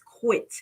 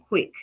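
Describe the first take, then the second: First: The word ends with a t sound. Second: The word ends with a k sound. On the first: This is the proper form of the term. The speaker calls it right. "but it's quit" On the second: This is how the speaker's accent says it. The speaker calls it wrong. "I'll be saying quick"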